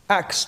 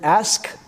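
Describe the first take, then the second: First: The word ends with a ks sound. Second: The word ends with an sk sound. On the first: The speaker calls it wrong. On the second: The speaker calls it right. "pronouncing the word ask"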